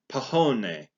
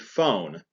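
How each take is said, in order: First: It begins with a p sound, two syllables. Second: It begins with an f sound, one syllable. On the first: The speaker calls it wrong. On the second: The speaker calls it right.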